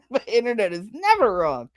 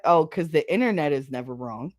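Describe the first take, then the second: First: Laugh, then swoop up on never; exaggerated sarcasm. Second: Dry, understated sarcasm. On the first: Mocking those who trust the internet, hammed-up sarcasm. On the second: Acted. Mocking those who trust the internet, dryly sarcastic. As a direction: say it with knowing irony, fairly low. Sarcastic first take, then exaggerated repeat.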